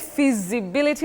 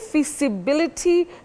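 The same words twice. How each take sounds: First: The s is a voiced buzz. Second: The s is a voiceless hiss.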